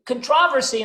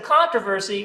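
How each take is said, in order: First: "controversy" stressed on the second syllable; shifted stress. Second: Said in the usual way. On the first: Shown as a demonstration. German tourist says it differently, "controversy" stressed on TROV. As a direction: say "controversy" as "con-TROV-ersy". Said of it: "if a German tourist were to say". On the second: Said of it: "instead of controversy".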